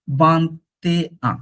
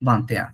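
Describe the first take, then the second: First: Slow ভান্তে আ, broken into parts; separated syllables. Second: ভান্তে আ linked as one word; said together. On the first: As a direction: pull ভান্তে and আ apart, slowly. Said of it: "এ আ না বলে". (ভান্তে আ ধীরে, ভেঙে ভেঙে) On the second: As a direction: run ভান্তে straight into আ. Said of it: "আমরা একসাথে বলবো". (ভান্তে আ একসাথে জুড়ে উচ্চারণ) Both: Shown as a demonstration.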